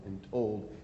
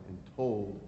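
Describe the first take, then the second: No difference in how they are said.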